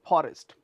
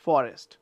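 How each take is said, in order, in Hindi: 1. पहली ध्वनि एक हल्की फूँक वाली p है। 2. पहली ध्वनि एक साफ़ f है। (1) "कई बार हम बोलते हैं ... that is not there in English language" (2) "this is एफ"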